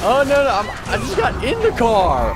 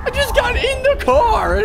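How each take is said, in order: First: Loud, exasperated cry; raised frustrated protest; upset protest. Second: Much higher, loud indignant shriek; high-pitched outraged yell; shrieking protest. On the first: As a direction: protest that you only just got in. Just got into the car, protesting. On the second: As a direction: shriek it in disbelief. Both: Real, not acted.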